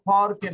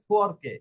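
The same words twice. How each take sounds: First: The pitch stays flat across the word. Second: The pitch rises then falls across the word. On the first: The speaker calls it wrong. "শুধু ফরকে না" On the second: The speaker calls it right. "উপরে উঠে আবার নিচে নামবে"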